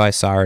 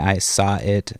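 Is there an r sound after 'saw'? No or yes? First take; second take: yes; no. First: Said with an r sound after 'saw'. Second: Said without an r sound after 'saw'. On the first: "I'll be like, oh" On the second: "instead of saying"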